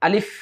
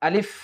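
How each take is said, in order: The two takes are said the same way.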